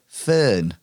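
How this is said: It is said in a Hull accent.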